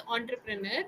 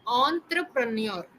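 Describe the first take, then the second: First: "entrepreneur" ending in a plain "-ner", no y glide; usual mispronunciation. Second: "entrepreneur" slowly, ending "-nyor"; correct pronunciation. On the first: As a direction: say "entrepreneur" as on-tre-pre-NER. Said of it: "Usually people pronounce it as". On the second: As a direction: say "entrepreneur" as on-tru-pre-NYOR, drawn out. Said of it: "the correct pronunciation is". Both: Shown as a demonstration.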